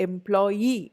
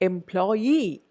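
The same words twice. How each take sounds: The two takes are said the same way.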